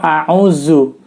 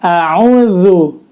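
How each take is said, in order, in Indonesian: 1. Huruf tengahnya adalah bunyi 'z'. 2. Huruf tengahnya adalah bunyi 'th' yang lembut. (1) "atau a'uzu" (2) "penyebutannya yang betul adalah a'udzu ... huruf zal"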